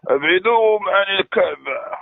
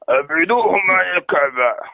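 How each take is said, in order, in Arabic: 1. الصوت ناعم ولطيف. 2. الصوت خشن وقاسٍ. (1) "باقي الصوت ديالك حنين" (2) "حاول تهضر حرش"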